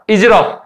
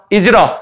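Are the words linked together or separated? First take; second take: linked; linked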